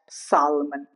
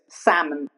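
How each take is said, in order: First: The L sound is pronounced. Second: The L sound is silent. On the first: The speaker calls it wrong. "not salmon" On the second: The speaker calls it right. "Next is salmon"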